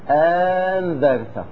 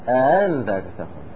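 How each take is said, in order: First: The second glottal stop becomes a long vowel. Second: The second glottal stop is softened, half-pronounced. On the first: "تارة تكون مبدلة أبدلناها إلى ألف" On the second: "وتارة تكون مسهلة بين"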